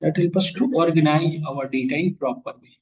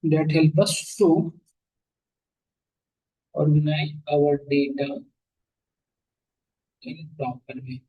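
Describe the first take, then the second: First: Slow, deliberate note-taking pace; slow dictation. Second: Very slow, broken into pauses between phrases; feed it phrase by phrase for note-taking; chunked slow dictation. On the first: Teacher dictating a definition to the class, slow and even. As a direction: spell it out slowly so they can write it down. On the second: Teacher repeating the definition for students to copy, very slow with pauses. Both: Shown as a demonstration. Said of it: "ये लिख लो".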